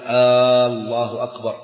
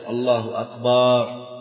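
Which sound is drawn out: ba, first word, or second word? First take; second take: first word; ba. First: The opening hamza of the first word is lengthened. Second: The ba sound in the second word is lengthened. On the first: The sentence becomes a question. "ألا يمد الهمزة في الجزء الأول" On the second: The word becomes the plural of drum. "أن لا يمد الباء"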